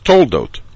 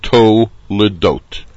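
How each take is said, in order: First: No vowel follows the l sound. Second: A short vowel follows the l sound. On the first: This is the casual form used in English talk. "especially if you're talking in English, the sedra is toldot" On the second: This is the form used when reading the Torah. "the word is properly pronounced to ledot"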